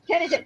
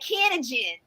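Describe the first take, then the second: First: It is said in a neutral accent. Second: It is said in a Southern US accent.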